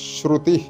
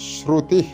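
Both takes have the same delivery.

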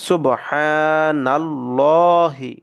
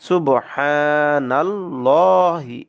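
Both takes have the same delivery.

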